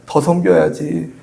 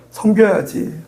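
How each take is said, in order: First: 더 섬겨야지 slow, with 더 held and weighted; slow, deliberate 더 섬겨야지; stress on 더. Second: Said in the usual way. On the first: Acted. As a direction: lean into 더 and slow right down.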